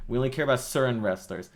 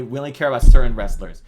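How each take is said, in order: First: Said in the usual way. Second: Blurted out much louder and fast; a sudden loud sarcastic outburst; mock loud admission. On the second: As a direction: mockingly shout the company's real stance. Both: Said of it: "when you say".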